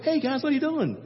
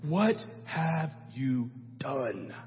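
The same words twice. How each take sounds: First: High, light and breezy; casual. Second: Low, soft, very slow and grave; heavy solemn prophet rebuke. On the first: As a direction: toss it off like nothing's wrong. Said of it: "It wasn't like". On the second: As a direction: stretch it out like a stern judge. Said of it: "He's like". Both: Retold or imitated.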